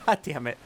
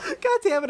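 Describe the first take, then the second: First: Laughing. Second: Much higher, louder "God damn it"; exasperated outburst. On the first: Laughing repeat of outburst. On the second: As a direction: blurt it out, caught off guard. Caught by Critical Role reference. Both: Real, not acted.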